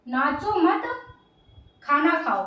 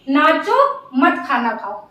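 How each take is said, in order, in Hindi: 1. विराम शब्द 'mat' के बाद आता है। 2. विराम शब्द 'naacho' के बाद आता है। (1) "नाचो मत मतलब मत नाचो" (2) "नाचो, नाचते रहो, मत खाना खाओ"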